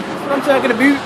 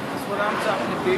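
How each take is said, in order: First: Yelled high and loud, stretching about; excited shout. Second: Said in the usual way. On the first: Shown as a demonstration. Cooking over the fire, shouting it louder the second time. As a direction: belt it out, rising on about.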